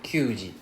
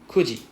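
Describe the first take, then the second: First: It begins with kyu, with a y glide. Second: It begins with ku, with no y glide. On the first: The speaker calls it wrong. "instead of kyuji" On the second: The speaker calls it right. "kuji instead of kyuji"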